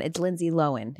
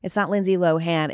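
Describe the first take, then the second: First: "Lohan" said LOH-uhn, no h; soft "Lohan" with the h dropped; correct pronunciation. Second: "Lohan" said LOH-han with an h; wrong pronunciation. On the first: Host demonstrates the actress's own pronunciation of "Lohan". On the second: Host demonstrates the common wrong way to say "Lohan". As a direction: sound the h in "Lohan". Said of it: "Not Lohan". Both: Shown as a demonstration.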